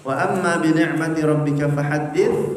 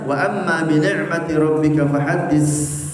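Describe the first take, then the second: First: The final consonant is a th sound. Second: The final consonant is an s sound. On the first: The speaker calls it right. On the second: The speaker calls it wrong.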